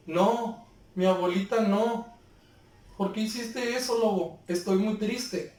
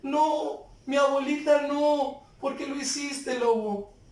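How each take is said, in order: First: Said in the usual way. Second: Higher pitched, tearful pleading cry. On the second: Shown as a demonstration. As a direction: let the grief break through the words. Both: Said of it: "Es muy diferente a que lo diga".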